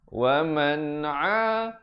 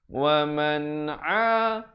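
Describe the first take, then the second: The two takes are said the same way.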